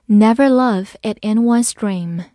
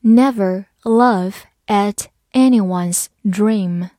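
First: Said in the usual way. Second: "Never laugh at anyone's dream" slowly, word by word; slow reading. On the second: Shown as a demonstration. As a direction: leave a gap between words. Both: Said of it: "慢读一遍".

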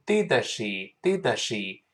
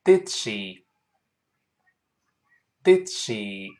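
First: "did she" with an extra vowel after d, "di-de-she"; over-released D. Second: "did she" with a silent stop before "she"; held D. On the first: Teacher showing learners the mistake, "did she" with released d. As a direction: fully explode the d in "did she". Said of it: "不要读did she". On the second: Teacher models the correct link, "did she" with held d. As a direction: hold the d of "did" unreleased, then "she". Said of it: "我们再读一遍". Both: Shown as a demonstration.

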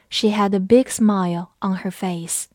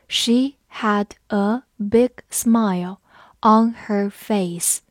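First: Said in the usual way. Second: Slow and separated, word by word; slow it right down for learners to repeat; slow read-along. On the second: Shown as a demonstration. Teacher asks learners to read along, slow reading. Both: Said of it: "跟着我慢读一遍".

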